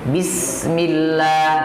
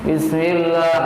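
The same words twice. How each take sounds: First: The i vowel sounds thin, lips spread wide. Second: The i vowel sounds muffled, lips not spread. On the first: The speaker calls it right. "harus nyengir. Bismillah, jadi jelas" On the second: The speaker calls it wrong. "jangan seperti kita uh, orang-orang yang makan permen. ... Tidak mau nyengir"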